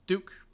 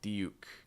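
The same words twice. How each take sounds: First: It is said with an American accent. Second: It is said with a British accent. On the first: "In American English, it's duke" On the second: "British English, you may hear more like duke"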